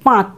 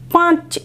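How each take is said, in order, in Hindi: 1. केवल स्वर अनुनासिक है; अंतिम व्यंजन सादा है। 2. अनुनासिकता अंतिम व्यंजन पर भी आती है। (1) "কিন্তু পাঁচ" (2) "এরকম নয়"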